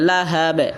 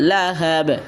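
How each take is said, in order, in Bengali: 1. শব্দটি খালি 'b' দিয়ে তীক্ষ্ণভাবে শেষ হয়। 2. শব্দটি খালি 'b' দিয়ে তীক্ষ্ণভাবে শেষ হয়।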